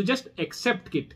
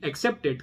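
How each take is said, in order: First: Just accept it, drawn out slow with weight on just; slow emphatic advice. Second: Said in the usual way. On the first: Shown as a demonstration. Telling an anxious viewer to just accept it, slow and emphatic. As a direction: lean hard on just and stretch the whole phrase slowly. Advising how to handle anxiety.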